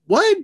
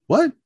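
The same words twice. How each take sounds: First: Loud, very high yelped what; high incredulous yelp; shocked disbelief. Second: Short questioning what; brief, restrained surprise; taken aback. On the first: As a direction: squawk it in outrage, rising sharply. Second reaction, told to stand there. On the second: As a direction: ask it in mild disbelief. First reaction to being left. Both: Retold or imitated.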